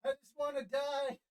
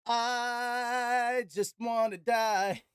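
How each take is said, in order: First: Out of breath. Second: Dragged out, winded and slow; slow exhausted moan. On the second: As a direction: draw it out like you're spent. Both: Real, not acted.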